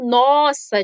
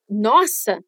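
First: Nossa as in wow; impressed surprise. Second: Dismayed nossa, falling; negative surprise. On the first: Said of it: "de quando você tá impressionado". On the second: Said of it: "de surpresa negativa". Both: Shown as a demonstration.

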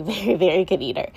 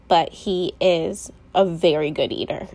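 First: "very, very" each stressed, leaning in with a laugh; emphatic very. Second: Said in the usual way. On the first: Shown as a demonstration. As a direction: push every "very" hard. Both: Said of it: "And I mean very".

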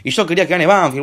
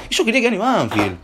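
First: Said in the usual way. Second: "Y yo quería que gane Banfield" said again higher, whining; higher whiny repeat. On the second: Shown as a demonstration. Complaining to viewers about the team, higher whiny repeat. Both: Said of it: "repeated line".

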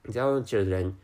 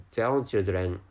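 The two takes are said the same way.

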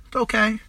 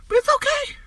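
First: Said in the usual way. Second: Sudden high sing-song reassurance; mock reassuring. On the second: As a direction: chirp it high, like comforting a child. Mock reassurance after bleak prediction.

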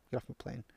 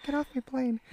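First: Harrison Ford. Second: High-pitched mock action-hero order; Harrison Ford. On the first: Acted. Parent joking about negotiating with terrorists, quiet hero impression. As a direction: quote the action hero under your breath. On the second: Parent repeating the film line, higher comic impression. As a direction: send up the movie line, pitched way up. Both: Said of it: "I'm Harrison Ford".

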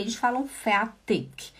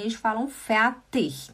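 First: Eles falam fertig with fertig said feartik, soft final k; southern German fertig. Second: Fertig ending in a ch sound, northern style; northern German fertig. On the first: Teacher showing how the south says fertig. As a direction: fertig ending in a k sound, southern style. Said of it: "da parte sul da Alemanha". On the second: Teacher showing how the north says fertig. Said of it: "E do norte da Alemanha". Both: Shown as a demonstration.

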